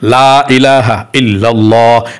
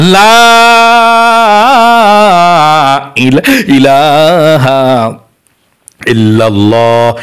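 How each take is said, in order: First: The phrase is recited quickly. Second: The phrase is recited slowly with a stretched 'la'. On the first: "যদি দ্রুত পড়তে চান" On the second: "লায়ের মধ্যে টান দিতে হবে এভাবে"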